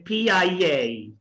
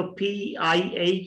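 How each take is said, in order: First: पी आई ए run together as "phee-yai-yay"; connected पी आई ए, "phee-yai-yay"; linked letters. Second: Said in the usual way. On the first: Shown as a demonstration. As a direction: glide a Y into each vowel of पी आई ए. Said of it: "ये का ए के साथ". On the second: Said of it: "पी आई ए की बजाय".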